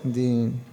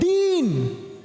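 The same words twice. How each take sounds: First: The word is said quietly and hesitantly. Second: The word is shouted out loudly. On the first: The person is holding back out of pride. The speaker calls it wrong. "we've got too much ego to protect" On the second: The person answers freely without self-consciousness. The speaker calls it right. "they don't care. They're like"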